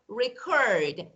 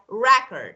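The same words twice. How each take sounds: First: The stress is on the second syllable. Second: The stress is on the first syllable. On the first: It is the verb, to store information. "the second one is like record" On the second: It is the noun, stored information. "the first one, the stress is on the first"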